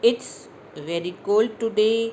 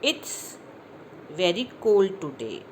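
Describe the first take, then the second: First: The sentence is spoken quickly. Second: The sentence is spoken slowly. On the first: "अब इन्हीं sentences को मैं जल्दी जल्दी बोलूँगी" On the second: "अभी मैं स्लो बोल रही हूँ"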